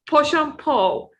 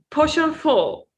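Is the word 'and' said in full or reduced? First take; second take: reduced; reduced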